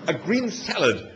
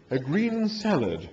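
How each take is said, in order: First: "A green salad" said firmly, slow, stress on "green"; emphatic. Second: "A green salad" repeated slow and softer, sniffy; disapproving. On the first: Arthur ordering his meal, emphatic and slow. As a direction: plant "green salad" with finality. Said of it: "said Arthur emphatically". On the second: The animal echoing Arthur's order, disapproving. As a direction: echo "A green salad" as if it's beneath him. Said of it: "rolling its eyes disapprovingly". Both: A narrator's reading.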